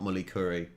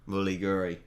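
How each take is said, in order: First: The middle consonant is a K sound. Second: The middle consonant is a hard G sound. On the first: The speaker calls it wrong. "not mully curry" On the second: The speaker calls it right. "pronounced the K to a G sound"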